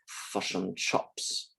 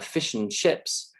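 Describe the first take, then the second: First: The I vowel in chips sounds close to U. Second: The I vowel in chips sounds plain.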